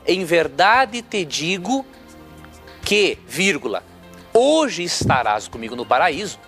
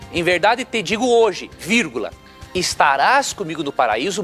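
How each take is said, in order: First: The break comes before the word hoje. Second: The break comes after the word hoje. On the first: The thief would be in paradise that same day. The speaker calls it wrong. "Se nós colocarmos a vírgula aqui" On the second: The promise is made today for a later time. The speaker calls it right. "se a vírgula mudar de lugar"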